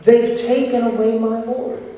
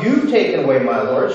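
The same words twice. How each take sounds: First: They've stressed and lifted. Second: You've hit, fast and dismissive; the wrong reading, You've quickly stressed. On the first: Preacher correcting a misquote, stressing They've. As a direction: lean on They've, not You've. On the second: Preacher showing the wrong version with You've stressed. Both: Shown as a demonstration.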